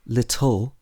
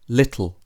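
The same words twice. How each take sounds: First: The final vowel is full and longer. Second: The final vowel is reduced and shorter. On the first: The speaker calls it wrong. "we wouldn't say little" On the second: The speaker calls it right. "the vowel sound at the end of the word becomes shorter"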